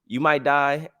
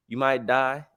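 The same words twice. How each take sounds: The two takes are said the same way.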